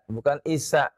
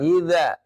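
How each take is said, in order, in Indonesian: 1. Konsonan tengahnya bunyi 's' mendesis. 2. Konsonan tengahnya bunyi 'dh' bersuara.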